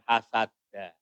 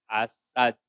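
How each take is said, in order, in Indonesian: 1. Kata ini berakhir dengan bunyi vokal. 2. Kata ini berakhir dengan konsonan hambat.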